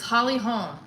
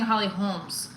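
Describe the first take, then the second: First: The last name ends without an s sound. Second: The last name ends with an s sound. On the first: The speaker calls it right. "It's Holly Holm" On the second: The speaker calls it wrong. "I kept saying Holly Holmes"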